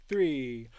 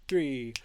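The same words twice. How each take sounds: The two takes are said the same way.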